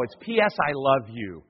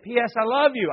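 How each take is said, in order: First: Said in the usual way. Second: Put-on higher, louder eager kid voice; the kids chirping the title back; kid answering. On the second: Pastor's kid telling dad the movie title, high eager voice.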